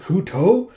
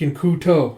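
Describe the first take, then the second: First: Higher, questioning "Kuto"; "Kuto" as a startled question; surprised echo. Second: Said in the usual way. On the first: Acted. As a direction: repeat "Kuto" in disbelief, rising. Girl echoes in surprise.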